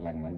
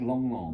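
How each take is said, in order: First: The vowel sounds like the one in 'bang'. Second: The vowel sounds like the one in 'long'. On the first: The speaker calls it wrong. "it looks like Lang Lang" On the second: The speaker calls it right. "You pronounce it Long Long"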